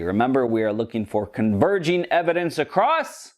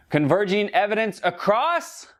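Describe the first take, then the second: First: Said in the usual way. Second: High, bright prompt for the audience to shout back; kids show host. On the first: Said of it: "Go ahead, this is one of them interactive kids shows". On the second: Acted. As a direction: ask it like a children's TV host waiting for kids to answer. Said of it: "one of them interactive kids shows".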